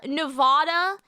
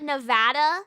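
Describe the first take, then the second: First: Nevada with "ah" in the middle, nuh-VAH-duh; Nevada with a broad middle vowel; wrong Nevada. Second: Nevada with the short A of "cat"; Nevada with a flat "a" as in "add"; correct Nevada. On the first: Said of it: "a lot of people say". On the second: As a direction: say Nevada as nuh-VAD-uh. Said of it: "Because it's Nevada". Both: Shown as a demonstration.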